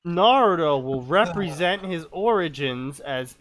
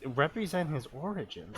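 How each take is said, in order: First: Measured read-aloud delivery; story reading. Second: Quieter, quicker puzzled repeat; baffled echo. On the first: Acted. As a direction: read "represent his origins" out as narration. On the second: Real, not acted. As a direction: query "represent his origins" under your voice. Repeats the line in disbelief.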